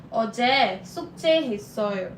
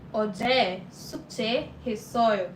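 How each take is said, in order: Both takes have the same delivery.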